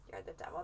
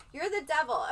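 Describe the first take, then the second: First: The same words again, much softer and lower, with a lift at the end; soft repeat. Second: Said in the usual way. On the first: Shown as a demonstration. Host repeating her own line back in a soft murmur. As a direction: echo it softly under her breath, trailing up.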